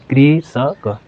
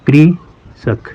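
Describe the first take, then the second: First: Said in the usual way. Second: कृषक drawn out very slowly, the कृ clearly sounded as kri; slow demo pronunciation. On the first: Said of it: "जैसे कृ". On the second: Shown as a demonstration. Teacher showing pupils how कृषक sounds, spoken very slowly. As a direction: stretch कृषक syllable by syllable so the री sound is heard in कृ. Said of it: "कृ, री आ रहा है ना".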